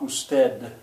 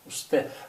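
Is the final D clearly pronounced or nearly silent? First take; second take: pronounced; nearly silent. First: The final D is clearly pronounced. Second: The final D is nearly silent. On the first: The speaker calls it wrong. "It's not usted. That would be bad Spanish" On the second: The speaker calls it right. "it's sort of silent"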